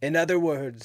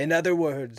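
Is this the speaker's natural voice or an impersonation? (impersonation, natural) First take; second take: impersonation; impersonation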